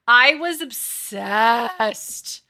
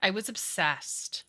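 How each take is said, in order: First: Stretched slow and loud, every word leaned on; really milk the obsession; drawn-out gush. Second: Said in the usual way. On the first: Real, not acted. Confessing a childhood obsession to chat, gushing slowly and loudly.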